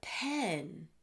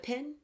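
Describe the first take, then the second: First: The vowel sounds like the vowel in 'pen'. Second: The vowel sounds like the vowel in 'pin'. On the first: "you mean a pen" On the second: "I used to not even be able to hear the difference uh, between pen and pin"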